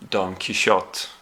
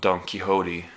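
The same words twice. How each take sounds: First: The name is pronounced the Swedish way. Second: The name is pronounced the English way. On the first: "I think that's how you pronounce it in Swedish" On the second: "they said it like Don Quixote in the movie"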